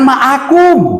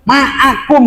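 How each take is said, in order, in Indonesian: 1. Bunyi ain diucapkan sebagai vokal biasa. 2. Bunyi ain dibuat jauh di dalam tenggorokan. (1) "Jangan ma'akum" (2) "Ma'akum yang baca tuh"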